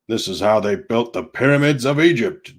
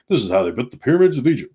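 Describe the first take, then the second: First: It is read at a normal, unhurried pace. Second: It is read at a quick, rushed pace.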